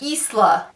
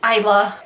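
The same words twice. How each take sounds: First: It does not sound like 'island' minus 'and'. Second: It sounds like 'island' with 'and' dropped. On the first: The speaker calls it wrong. "I thought it was pronounced Isla the whole time" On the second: The speaker calls it right. "It's Isla"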